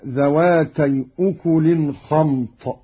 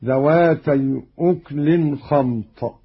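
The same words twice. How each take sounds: First: أكل with damma on the kaf; voweled kaf. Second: أكل with no vowel on kaf; lightened silent kaf. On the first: Teacher quotes the verse before the variant, أكل as ukulin. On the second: Teacher shows Qalun's reading, أكل as uklin. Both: Shown as a demonstration. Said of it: "بإسكان الكاف تخفيفا".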